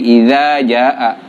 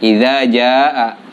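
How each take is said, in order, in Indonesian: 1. Vokal panjang dipotong pendek. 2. Vokal panjang dipotong pendek.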